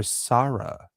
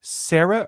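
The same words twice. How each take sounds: First: Sarah said SAH-ruh; Sarah with the first vowel of "father"; SAH-ruh pronunciation. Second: Sarah said SAIR-uh; Sarah rhyming with Tara as in "air-uh"; SARE-uh pronunciation. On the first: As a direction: say Sarah with an open "ah" in the first syllable. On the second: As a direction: say Sarah with the first vowel of "air". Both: Shown as a demonstration. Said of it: "are you saying it like".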